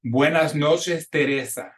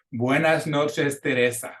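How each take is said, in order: First: Slow, careful Spanish with short E; "Buenas noches" with E short like bet; slow model line. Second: Slowed repeat for the class; "Teresa" with both E's short like bet. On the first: Teacher models the Spanish E for students to repeat, slow. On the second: Teacher repeats the line for students to echo, slow. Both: Shown as a demonstration. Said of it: "consistent pronunciation of the Spanish E".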